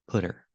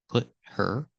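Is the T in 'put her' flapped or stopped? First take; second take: flapped; stopped. First: The T is a quick D-like flap. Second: The T is cut off as a stop. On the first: "make the T a fast D" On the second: "make the T a stop T"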